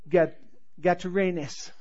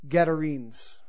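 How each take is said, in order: First: The word is said in an Italian-style accent. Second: The word is said in a plain accent. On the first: "That's my Italian pronunciation" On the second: "I'm going to butcher it"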